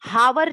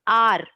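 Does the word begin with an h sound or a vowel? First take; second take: h sound; vowel. First: The word begins with an h sound. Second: The word begins with a vowel sound. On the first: The speaker calls it wrong. "हावर नहीं करते" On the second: The speaker calls it right. "इसका pronunciation हम आ करते हैं"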